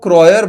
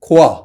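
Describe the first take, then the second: First: It is said like kroyer, ending in -yer. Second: It is said like khoa, without an r. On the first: This is the form that was finally adopted. "फिर यहाँ पे क्या हुआ कि वो क्रॉयर बन गया" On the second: This is how a French speaker says it. "अगर आप एक फ्रेंच पर्सन से पूछो तो it's actually pronounced as खोआ"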